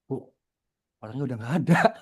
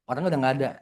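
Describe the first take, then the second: First: It is said with noticeable emotion and expression. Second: It is said in a flat, even tone.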